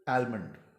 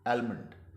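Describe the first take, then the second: First: An L sound is heard after the vowel. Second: The same.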